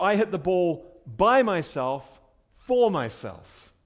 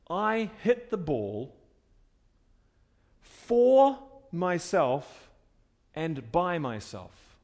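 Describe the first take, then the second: First: Slow take pressing "by myself" and "for myself"; weight the "myself" phrases, slowly; stress on myself. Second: Slow, leaning on "for myself" and "by myself"; stress on myself. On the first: Preacher repeating middle voice example, stressing "myself". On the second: Preacher demonstrating middle voice, slow stress on "myself". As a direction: draw out "myself" slowly, pressing each. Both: Shown as a demonstration. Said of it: "The emphasis is on myself".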